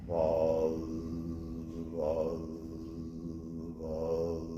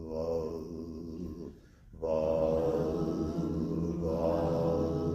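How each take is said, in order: The two takes are said the same way.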